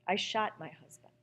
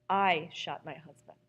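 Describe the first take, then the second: First: The stress falls on the word shot. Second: The stress falls on the word I.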